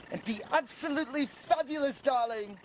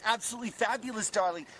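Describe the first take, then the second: First: High, swooping camp gush on fabulous; camp flamboyant voice. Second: Lightly camp, lilting repeat. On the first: Man startled by his own voice, camp gush. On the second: Man repeating his new voice, lightly camp. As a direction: say it again with a hint of camp flair. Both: Pretend. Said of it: "I don't talk like that".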